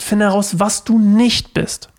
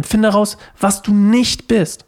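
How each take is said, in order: First: Said in the usual way. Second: Slow, with the weight landing on "nicht" in "was du nicht bist"; stress on NICHT. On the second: Shown as a demonstration. Preacher stressing to the congregation: lean on "nicht". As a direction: lean hard on "nicht" and draw the phrase out. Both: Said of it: "Die Betonung vor allem".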